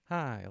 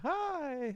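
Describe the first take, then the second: First: It is said flat, like a letdown. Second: It is said high-pitched and excited.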